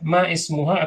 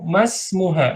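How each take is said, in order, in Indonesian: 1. Vokal 'i' sebelum 'smuha' dilafalkan terpisah. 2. Vokal 'i' dihilangkan, menyambungkan 'ma' ke 'smuha'. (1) "kalau dari depan berarti ini dibaca" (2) "Kalau di tengah ininya di nggak dibaca"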